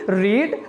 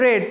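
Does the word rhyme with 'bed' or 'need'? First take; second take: need; bed. First: The vowel is long, like in 'need'. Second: The vowel is short, like in 'bed'. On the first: It is the present form of the verb. "रीड की first form" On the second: It is the past form of the verb. "Second form and third form"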